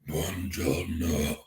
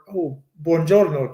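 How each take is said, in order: First: It is said in a very deep voice. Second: It is said in an ordinary, lighter voice.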